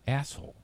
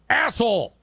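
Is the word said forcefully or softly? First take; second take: softly; forcefully. First: The word is said in a much softer tone. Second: The word is said with strong, forceful emphasis. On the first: "your tone is just so much softer" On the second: "Did you hear that emphasis?"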